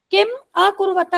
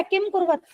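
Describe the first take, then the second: First: किम अकुर्वत with किम's final m running into अकुर्वत, किमकुर्वत; Sanskrit pronunciation. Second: किम कुर्वत read Hindi way, a dropped before कुर्वत; Hindi-style reading. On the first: Teacher shows students the correct Sanskrit reading, किम joined to अकुर्वत. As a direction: join किम to अकुर्वत so the अ is heard. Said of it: "इसका संधि विच्छेद देखो". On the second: Teacher shows students the wrong Hindi reading, किम कुर्वत without the अ. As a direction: say किम कुर्वत as a Hindi reader would, no अ sound. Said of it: "Hindi में किम कुर्वत पढ़ोगे इसको?".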